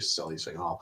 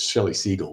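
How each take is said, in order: First: The surname is said like Seagal. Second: The surname is not said like Seagal. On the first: This is the fancy-sounding way others say it. The speaker calls it wrong. "but people say Shelley Seagal" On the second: This is how the person's name really goes. The speaker calls it right. "It's Shelley Siegel"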